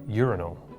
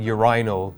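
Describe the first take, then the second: First: It is said with a non-British pronunciation. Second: It is said with a British pronunciation.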